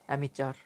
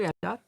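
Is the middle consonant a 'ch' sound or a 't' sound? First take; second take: ch; t. First: The middle consonant is a 'ch' sound. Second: The middle consonant is a hard 't' sound. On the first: "কোথাও অ্যামিচার উচ্চারণ হয়" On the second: "ট থাকতে পারে অ্যামিটার"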